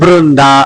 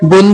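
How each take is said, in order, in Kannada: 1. ಹೆಸರನ್ನು r ಧ್ವನಿಯೊಂದಿಗೆ ಹೇಳುತ್ತಾರೆ. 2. ಹೆಸರನ್ನು r ಧ್ವನಿ ಇಲ್ಲದೆ ಹೇಳುತ್ತಾರೆ. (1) "ಅದು ಬೃಂದ" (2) "ಬುಂದ ಅಲ್ಲ"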